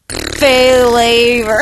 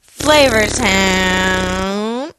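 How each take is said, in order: First: Loud drawn-out announcer. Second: Very slow drawn-out Flavor Town; drawn-out announcer voice. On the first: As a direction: boom it like a TV host. Announcer-style catchphrase. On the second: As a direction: stretch it out like a show intro. Drawn-out catchphrase. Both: Pretend.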